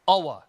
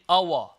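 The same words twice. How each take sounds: Both takes have the same delivery.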